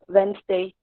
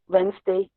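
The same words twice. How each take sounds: First: It is reduced to two syllables. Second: The same.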